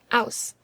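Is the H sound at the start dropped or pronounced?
dropped. The word starts without any H sound.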